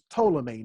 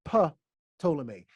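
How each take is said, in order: First: The word starts with a T sound, no P. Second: The word starts with a P then T sound. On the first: The speaker calls it right. "You don't pronounce it. This is Ptolemy" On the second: The speaker calls it wrong. "not Ptolemy"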